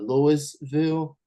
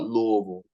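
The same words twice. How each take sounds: First: The s in the name is pronounced. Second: The s in the name is silent. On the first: It is said this way as a joke. "jokingly call it Louisville because of the S" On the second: This is how the local people say it. "They call it"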